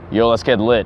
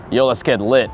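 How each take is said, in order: Both takes have the same delivery.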